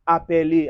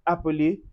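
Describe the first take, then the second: First: The middle vowel is a clear 'ay' sound. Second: The middle vowel is a weak 'uh' sound. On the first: The speaker calls it wrong. "stop saying appeler" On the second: The speaker calls it right. "We say appeler"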